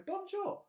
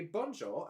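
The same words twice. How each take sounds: First: "Bonjour." sung out much higher, mock French; French shopkeeper's reply. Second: Said in the usual way. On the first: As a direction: chirp "Bonjour." up high like a French baker. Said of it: "and they go". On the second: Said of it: "you'd have to say".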